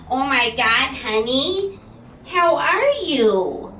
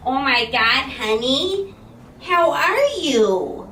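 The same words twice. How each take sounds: First: It is acted out in the mom's voice. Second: It is acted out in the mom's voice.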